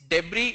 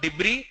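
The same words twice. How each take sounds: First: Debris as DEB-ree, open e; correct debris. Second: Debris as dib-REE, short i; mistaken debris. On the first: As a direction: say debris with "deb" first and silent s. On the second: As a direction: say debris with "dib" in place of "deb". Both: Shown as a demonstration. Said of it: "it's not debris".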